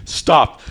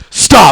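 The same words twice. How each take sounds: First: Said in the usual way. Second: Louder, higher acted command; sharp stop. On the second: Boyfriend acting out halting his girlfriend, sharp and loud. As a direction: raise it into a firm protest.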